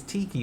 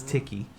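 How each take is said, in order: First: "tiki" said the common English way, as a lot of people say it; wrong tiki. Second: "tiki" said the correct Maori way. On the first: Correcting the common mistake, the wrong English way first. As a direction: say "tiki" the incorrect way, as people often do. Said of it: "which is not correct". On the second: Correcting the common mistake, the right Maori way. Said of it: "which is not correct, it's tiki". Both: Shown as a demonstration.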